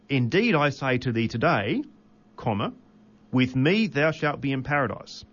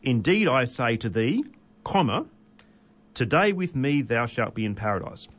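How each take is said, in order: First: The break comes after the word 'today'. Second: The break comes before the word 'today'.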